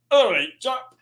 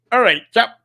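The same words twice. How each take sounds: First: High put-on voice; a hint of a jolly chap greeting; mock impression. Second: High, louder put-on greeting; cheery chap greeting, hammed-up; mock impression. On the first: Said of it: "that's exactly how Matt Dickinson speaks". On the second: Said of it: "that's not how he speaks".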